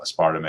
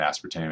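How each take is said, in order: First: "aspartame" as a-SPAR-ta-may; alternative pronunciation. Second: "aspartame" as AS-per-tame; common pronunciation. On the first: Lecturer naming the debated sweetener both ways, "aspartame" here as a-SPAR-ta-may. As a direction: say "aspartame" in four syllables, SPAR stressed, ending in "may". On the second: Lecturer naming the debated sweetener both ways, "aspartame" here as AS-per-tame. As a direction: say "aspartame" in three syllables, stressed first, ending like "tame". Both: Shown as a demonstration. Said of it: "depending on how you wanna pronounce it".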